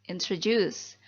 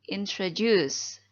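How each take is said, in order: No difference in how they are said.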